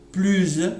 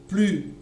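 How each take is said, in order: First: The word ends with a z sound. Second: The final s is silent. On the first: "il y a le S, mais avec un son Z et sera employé dans les liaisons" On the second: "il n'y a pas de S"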